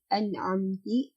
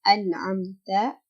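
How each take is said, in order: First: The word ends with an i vowel. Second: The word ends with an a vowel. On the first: The speaker calls it wrong. "diubah menjadi an'amti" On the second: The speaker calls it right. "kata an'amta"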